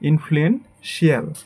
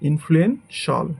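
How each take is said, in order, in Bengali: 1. শেষের অংশটি দুই ভাগে উচ্চারিত হয়, shee-al। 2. শেষের অংশটি এক ভাগে উচ্চারিত হয়, shal। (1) "এটাকে আমরা বলি" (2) "বাট এটা আমাদের হবে"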